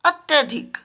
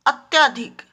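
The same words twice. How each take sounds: First: अत्यधिक with short "tya"; correct form. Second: अत्याधिक with long "tyaa"; wrong form. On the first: Teacher gives children the right word, carefully pronounced. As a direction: say अत्यधिक as "at-ya-dhik", middle vowel short. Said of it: "सही शब्द होता है". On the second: Teacher reads out the common error to children, mispronounced. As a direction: say अत्याधिक as "at-YAA-dhik". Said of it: "और सही शब्द होता है". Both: Shown as a demonstration.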